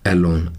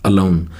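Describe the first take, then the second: First: The first vowel is a full 'ay' sound. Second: The first vowel is a short 'uh' sound. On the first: The speaker calls it wrong. "ए का ए की sound है, ये actual में एलोन नहीं होता।" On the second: The speaker calls it right. "इसका सही जो प्रोनाउंसिएशन है"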